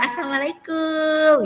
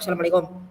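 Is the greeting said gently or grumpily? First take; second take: gently; grumpily. First: The greeting sounds gentle and friendly. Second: The greeting sounds curt and grumpy. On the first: The speaker is being kind and polite. The speaker calls it right. "itu kan bersikap lembut ya" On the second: The words are polite but the attitude is unfriendly. The speaker calls it wrong. "sambil jutek"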